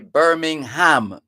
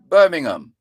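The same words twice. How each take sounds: First: The h sound in the middle is pronounced. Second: The h sound in the middle is silent. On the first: The speaker calls it wrong. "You don't go out of your way to say" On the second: The speaker calls it right. "you don't pronounce the H"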